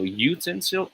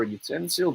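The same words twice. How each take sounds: First: YOO-ten-sil for utensil; first syllable of utensil stands out; stress on first syllable. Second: Yoo-TEN-sil for utensil; stress on second syllable. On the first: Tutor builds to the reveal, first-syllable stress. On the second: Tutor builds to the reveal, second-syllable stress. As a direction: middle syllable of utensil stands out. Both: Shown as a demonstration. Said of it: "This one is a matter of stress".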